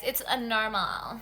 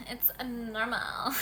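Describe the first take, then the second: First: Said in the usual way. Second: It's a normal whispered slowly. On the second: Shown as a demonstration. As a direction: hush it into a slow whisper.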